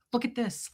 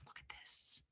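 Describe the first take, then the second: First: Softly voiced wonder; quiet, still voiced, marvelling; hushed showing-off. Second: Barely audible, voiceless whisper; fully whispered marvelling at a find; awed whisper. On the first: First take, showing off her find. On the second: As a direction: whisper it like a precious secret. Repeats it in a whisper. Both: Real, not acted.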